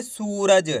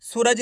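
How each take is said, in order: First: सूरज with a long, stretched ऊ; drawn-out vowel. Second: Said in the usual way. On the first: Shown as a demonstration. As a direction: stretch out the first syllable of सूरज: सूऊ-रज. (सूरज को खींच के पढ़ना) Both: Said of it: "खींच के पढ़ेंगे".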